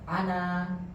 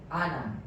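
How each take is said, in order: First: The final vowel is held long. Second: The final vowel is cut short. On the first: The word stands alone. "kalau dia berdiri sendiri dia panjang" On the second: The word is joined to the following words. "kalau seandainya dia bersambung pendek"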